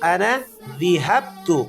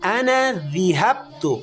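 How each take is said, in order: First: The verb's first vowel is an i sound. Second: The same.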